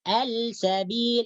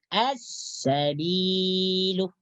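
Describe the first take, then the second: First: The L is pronounced clearly before the S. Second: The L merges into a doubled S sound. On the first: The speaker calls it wrong. "Al-sabil itu salah. Karena lam tidak dimasukkan ke dalam sin" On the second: The speaker calls it right. "Harus diidghamkan atau dimasukkan ke dalam huruf sin"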